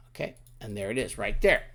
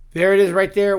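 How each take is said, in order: First: Said in the usual way. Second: There it is right there, louder and higher; excited reveal. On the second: Shown as a demonstration. Teacher showing off the finished grid, excited. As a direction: proudly announce there it is.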